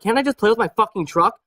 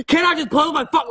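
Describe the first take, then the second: First: Cool, unbothered, no yelling; calm defiance. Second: High-pitched shrieking version of the line; mock yell. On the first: Toddler staring down preschool teacher: calm defiant reply. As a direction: say "Can't I just play with my fucking truck?" evenly, staring her down. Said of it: "I just look at her, I'm like". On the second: Toddler to preschool teacher, the wrong way: high mock yell. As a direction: yell "Can't I just play with my fuck?" way up high, mock tantrum. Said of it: "Like, I don't fucking yell". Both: Shown as a demonstration.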